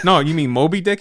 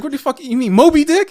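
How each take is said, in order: First: Mildly questioning retold correction; puzzled correction. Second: High, loud incredulous question; acted-out bafflement, pitched way up; exasperated disbelief. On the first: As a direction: gently check what he meant, voice rising at the end. First correction in retold argument. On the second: Retold correction escalates into disbelief.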